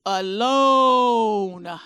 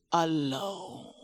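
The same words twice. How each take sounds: First: "Alone" drawn out and louder, falling firmly; emphatic repeated alone. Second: "alone" said low and soft, rising and fading out; soft trailing alone. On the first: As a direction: lean hard on "Alone", stretching it. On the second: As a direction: let "alone" drift off quietly. Repeats alone for emphasis. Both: Acted.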